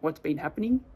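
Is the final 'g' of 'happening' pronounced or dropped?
pronounced. The ending of 'happening' is fully pronounced.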